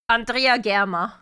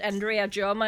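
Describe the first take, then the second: First: The name is said with a German pronunciation. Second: The name is said with an English pronunciation. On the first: This is how it would be said in German. "if you pronounce this German" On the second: This is how the other person says it. "since he's pronouncing it Andrea Germer"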